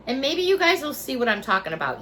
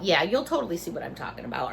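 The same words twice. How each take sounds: First: Said in the usual way. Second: Low, soft, fast muttered aside; sarcastic aside. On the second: Real, not acted. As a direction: throw it away under your breath. Quiet quick sarcastic repeat.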